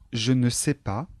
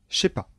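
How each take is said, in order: First: The word 'ne' is pronounced in full. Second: The word 'ne' is left out. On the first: This is the standard form. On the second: This is the familiar spoken form.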